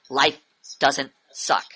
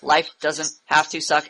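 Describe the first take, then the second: First: It is said with strong emphasis. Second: It is said in a flat robotic monotone.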